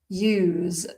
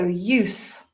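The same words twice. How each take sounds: First: The final consonant is a z sound. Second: The final consonant is an s sound. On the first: It is a verb. "The z pronunciation, you've got a verb" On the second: It is a noun. "when we've got the s sound, we've got an adjective or a noun"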